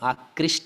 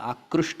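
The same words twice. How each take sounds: First: The vowel after 'kr' sounds like 'ee'. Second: The vowel after 'kr' sounds like 'oo'. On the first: The speaker calls it wrong. "आकृष्ट नहीं होता" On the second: The speaker calls it right. "आकृष्ट होता है"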